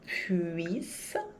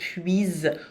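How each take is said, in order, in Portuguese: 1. A consoante do meio é um s sibilante, de chiado. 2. A consoante do meio é um z sonoro, que vibra. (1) "O som não é z, é s, de sapo" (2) "Cuidado para não dizer puise"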